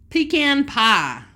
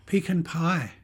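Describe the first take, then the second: First: "Pecan" said pee-CAHN, slow and louder; "Pecan pie" with American pee-kahn. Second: "Pecan" said PEE-kun, short second vowel; "Pecan pie" with British pee-kuhn. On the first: Wife correcting husband's British pecan, American way. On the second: Husband saying pecan the British way, flat. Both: Shown as a demonstration. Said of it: "No, you said pecan".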